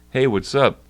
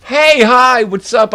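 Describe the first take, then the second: First: Said in the usual way. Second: Loud, higher hammed-up "Hey, hi, what's up?"; cartoonish poser hello, shouted; mock biker greeting. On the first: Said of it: "and I'm like". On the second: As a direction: yell it out like a wannabe tough guy. Mocking the fake biker's greeting.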